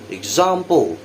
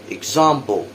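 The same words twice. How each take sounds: First: British accent, with an open 'ah' vowel. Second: The same.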